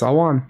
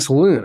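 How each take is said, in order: First: The second syllable sounds like 'wan'. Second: The second syllable sounds like 'loon'. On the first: The speaker calls it right. "it was Salwan" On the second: The speaker calls it wrong. "why is everyone saying Saloon?"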